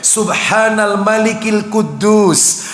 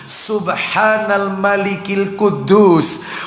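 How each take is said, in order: No difference in how they are said.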